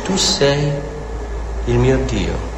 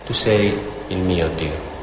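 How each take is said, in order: First: Said in the usual way. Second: Intimate prayer voice. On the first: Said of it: "Lui dice". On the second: Shown as a demonstration. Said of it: "è in questa comunione intima con Dio".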